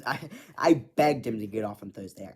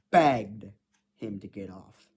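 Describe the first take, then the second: First: Said in the usual way. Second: Begged hit loud with a falling tune; stress on begged. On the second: Retold or imitated. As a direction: lean hard on the word begged. Repeats "begged" for emphasis.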